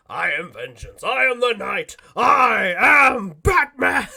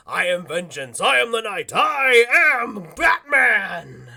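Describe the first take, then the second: First: Slow, louder, building to a booming hero cry; Batman line. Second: Batman line. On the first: Conroy standing on the counter for the firefighters, building to a boom. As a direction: declaim it on the countertop like the Dark Knight. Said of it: "does it like an actor". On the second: Conroy proving he is Batman to the kitchen guy, slow and booming. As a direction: boom it out like the Dark Knight. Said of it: "he does his famous line". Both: Retold or imitated.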